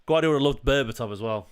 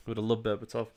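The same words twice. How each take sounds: First: Said in the usual way. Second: Softly, to himself; quiet aside. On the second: Real, not acted. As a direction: murmur it half under breath.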